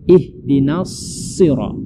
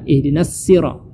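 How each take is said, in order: First: The s of sirat is thick and heavy. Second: The s of sirat is thin, like plain s. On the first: The speaker calls it right. "Yang benarnya ihdinas sirat. ... shad itu mesti ditebalkan" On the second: The speaker calls it wrong. "kebanyakan orang membaca ihdinas sirat. Ya, itu keliru"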